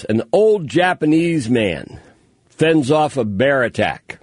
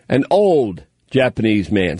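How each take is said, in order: First: Slow, savoring headline read; headline read aloud. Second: Said in the usual way. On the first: Shown as a demonstration. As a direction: relish each word of the headline. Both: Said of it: "I love the way they put this".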